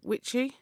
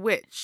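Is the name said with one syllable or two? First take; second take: two; one. First: The name is said with two syllables. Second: The name is said with one syllable. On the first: The speaker calls it wrong. "I don't want to say it wrong, is it witchy?" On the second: The speaker calls it right. "So witch"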